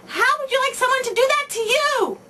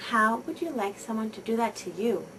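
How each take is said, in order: First: Put-on much higher and louder, scolding the child; loud shout. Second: Put-on quiet, kind question to the child aside; gentle and soft. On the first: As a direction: yell it at the child gripping his arm. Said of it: "you shout loudly". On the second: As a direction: ask it gently, drawing the child close. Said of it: "say very gently and softly". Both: Shown as a demonstration.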